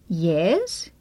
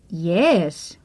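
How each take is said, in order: First: The pitch rises. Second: The pitch rises and then falls.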